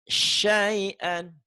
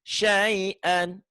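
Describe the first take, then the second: The two takes are said the same way.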